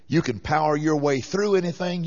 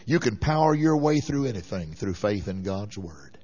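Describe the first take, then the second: First: Said in the usual way. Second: Low and quiet. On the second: Shown as a demonstration. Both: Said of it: "repeats the line".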